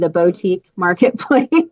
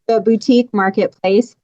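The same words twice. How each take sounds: First: Boutique is pronounced in a fancy, posh way. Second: Boutique is pronounced in a plain, ordinary way. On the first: "I'm also a little bougie" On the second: "I I say"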